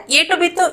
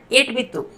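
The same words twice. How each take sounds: First: Said in the usual way. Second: एट बित्तु with the u of etu dropped; local colloquial pronunciation. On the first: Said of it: "इसको हम local accent में बोलते हैं". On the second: Shown as a demonstration. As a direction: run एट बित्तु together as "etbittu". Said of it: "local accent में बोलते हैं".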